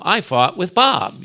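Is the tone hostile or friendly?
friendly. It sounds friendly, like fighting alongside Bob.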